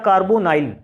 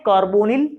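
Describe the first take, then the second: First: The last syllable has a long 'ai' sound. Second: The last syllable has a short 'i' sound. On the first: "कार्बोनाइल भी बोल सकते हैं" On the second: "इसको कार्बोनिल भी बोल सकते हैं"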